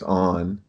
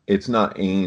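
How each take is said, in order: First: The vowel sounds like 'on', a rounded o. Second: The vowel sounds like 'ain', as in rain. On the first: The speaker calls it right. "it's on" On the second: The speaker calls it wrong. "So that it's not ain"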